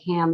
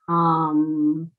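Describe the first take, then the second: First: The vowel sounds like the a in cat. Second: The vowel sounds like the u in cup. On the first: The speaker calls it wrong. "it's not pronounced like ham the pig" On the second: The speaker calls it right. "It's pronounced hum"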